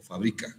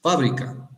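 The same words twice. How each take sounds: First: Fabrica stressed on BRI, the second syllable; stress on middle syllable. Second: Fábrica with the first syllable FÁ punched higher and louder; stress on first syllable. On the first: Teacher contrasting accented words for class, stress on BRI in fabrica. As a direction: lean on BRI in fabrica, not on the first syllable. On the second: Teacher contrasting accented words for class, stress on FÁ in Fábrica. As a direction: hit FÁ in Fábrica, let the rest drop. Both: Shown as a demonstration. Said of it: "Según dónde pongas el acento".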